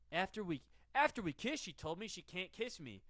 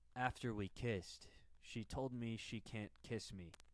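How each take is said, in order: First: It is said with normal expressive emotion. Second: It is said blandly, with a dead face.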